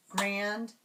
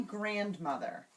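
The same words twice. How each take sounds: First: "grandmother" in three separate beats: grand, mo, ther; divided into syllables. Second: Said in the usual way. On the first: Shown as a demonstration. Teacher showing students how to tap it, syllable by syllable. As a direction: clap out "grandmother" with gaps between syllables. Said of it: "divide a word into syllables". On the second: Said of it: "Try grandmother".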